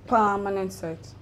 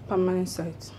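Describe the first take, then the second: First: It is said boldly, with conviction. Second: It is said timidly, without conviction.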